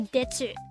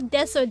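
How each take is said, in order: First: The middle consonant is a ch-like sound. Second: The middle consonant is a plain s sound. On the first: Cutesy baby talk. "when you do baby talk in Japanese ... they'll go detsu" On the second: Ordinary polite speech. "instead of desu"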